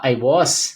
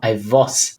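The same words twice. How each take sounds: First: The word 'was' begins with a W sound. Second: The word 'was' begins with a V sound. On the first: "ao invés de falar I was" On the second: "eles falavam I was. Era o, o W era V"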